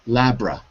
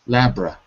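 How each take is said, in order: The two takes are said the same way.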